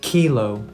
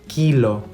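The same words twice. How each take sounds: First: The k is released with a puff of air. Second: The k is released with no puff of air.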